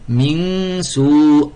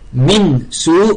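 First: The n is hidden in a nasal sound. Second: The n is pronounced fully and clearly. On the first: The speaker calls it right. "on dit" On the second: The speaker calls it wrong. "au lieu de dire"

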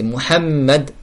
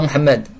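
First: The middle m sound is held long and doubled. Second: The middle m sound is short and single. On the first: The speaker calls it right. "le mim doublé" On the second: The speaker calls it wrong. "C'est pas Muhammad"

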